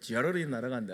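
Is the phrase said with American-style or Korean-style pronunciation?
American-style. It is said with a flapped, rolled r-like sound.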